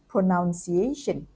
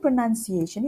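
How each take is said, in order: First: The second syllable sounds like 'noun'. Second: The second syllable sounds like 'nun'. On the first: The speaker calls it wrong. "sometimes mispronounced as" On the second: The speaker calls it right. "the word pronunciation itself"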